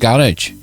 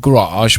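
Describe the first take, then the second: First: It is said in a plain local way. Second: It is said in a posh-sounding way.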